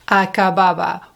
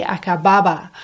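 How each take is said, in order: First: Lingering over "Acababa" as a loved word; savoured word. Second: "acababa" said quickly in the flow of the English sentence; fast plain word. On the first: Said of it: "What a wonderful word". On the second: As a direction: run "acababa" in lightly and fast. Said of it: "we say acababa". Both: Shown as a demonstration.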